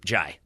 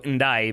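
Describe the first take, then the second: First: The name starts with a J sound. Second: The name starts with an N sound. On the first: The speaker calls it right. "you drop that noise" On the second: The speaker calls it wrong. "I've been saying it wrong"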